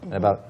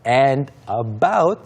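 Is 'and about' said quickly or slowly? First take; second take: quickly; slowly. First: The words are said quickly and lightly. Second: The words are said slowly and fully. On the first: "we just go very quickly on that" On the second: "이렇게 발음하지 않고"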